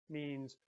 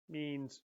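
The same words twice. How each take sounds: No difference in how they are said.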